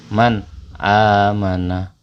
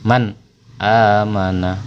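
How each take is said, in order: Both takes have the same delivery.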